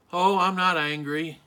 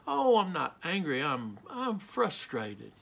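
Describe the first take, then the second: First: Firm denial with anger underneath; angry denial. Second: Mild, halting denial, slowing and softening at the end; denying anger. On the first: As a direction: insist on it, betraying a touch of anger. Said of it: "even as we say we're not angry, we are angry". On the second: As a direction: back away from the word angry, hesitantly. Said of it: "afraid to use the word angry, so we say". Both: Acted.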